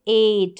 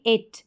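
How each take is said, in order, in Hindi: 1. स्वर लंबा है और खिंचा हुआ। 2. स्वर छोटा है और कटा हुआ। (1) "तो हम पढ़ेंगे एट" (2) "ना कि इट"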